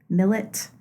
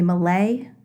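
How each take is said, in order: First: The name is said the English way. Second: The name is said the French way. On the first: "I say millet" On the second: "Many people say Malay. It's very French"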